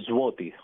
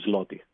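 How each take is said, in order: First: The letter after the first sound sounds like w. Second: The letter after the first sound sounds like l. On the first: This is how the locals say it. The speaker calls it right. "προφέρεται σαν we. Το λένε ζουότι" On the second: This is how outsiders say it. The speaker calls it wrong. "όχι σλότι"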